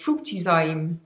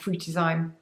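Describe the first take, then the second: First: It is said in a put-on accent. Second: It is said in her normal accent.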